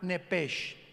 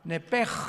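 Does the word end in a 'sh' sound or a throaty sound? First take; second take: sh sound; throaty sound. First: The word ends with a soft 'sh' sound. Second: The word ends with a throaty guttural sound. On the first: The speaker calls it wrong. "con ese H al final, como suena nepesh" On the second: The speaker calls it right. "se pronuncia como J ... Que es gutural"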